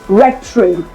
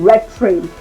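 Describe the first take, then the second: Both takes have the same delivery.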